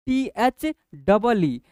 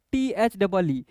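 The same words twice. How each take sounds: First: Letters टी एच डबल ई spelled out slowly and louder, one by one; slow emphatic spelling. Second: Said in the usual way. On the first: Shown as a demonstration. Teacher spelling टी एच डबल ई slowly for children, loud and deliberate. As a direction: drag out each letter of टी एच डबल ई.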